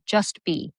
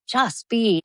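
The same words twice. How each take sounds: First: Said in the usual way. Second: Pitched-up mock repeat of the advice; light mocking imitation; mocking echo. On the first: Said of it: "and he said". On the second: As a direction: parrot it back, a little sarcastic. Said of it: "And I was like".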